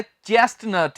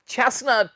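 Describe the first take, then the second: First: "चेस्टनट" with the middle "t" sounded; "चेस्टनट" as chest-nut; wrong pronunciation. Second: "चेस्टनट" with silent middle "t"; "चेस्टनट", s running straight into n; correct pronunciation. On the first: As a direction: hit the first t in "चेस्टनट". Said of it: "ये गलत है". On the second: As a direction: say "चेस्टनट" as ches-nut. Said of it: "टी इसमें भी हम नहीं बोलते". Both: Shown as a demonstration.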